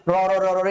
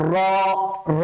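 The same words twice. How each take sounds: First: র said over and over as separate syllables, run together; wrongly repeated r. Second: র said once with the r vibrating in the mouth; trilled r. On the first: Teacher shows how not to do it, র chanted repeatedly. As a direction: repeat র, র, র, র as whole syllables instead of one trill. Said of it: "বারবার করে উচ্চারিত হওয়া মানে এরকম না". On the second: Teacher demonstrates for pupils, one rolled, quivering র at a time. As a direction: let the tongue roll on each single র. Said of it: "বারবার করে উচ্চারিত হতে থাকবে". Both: Shown as a demonstration.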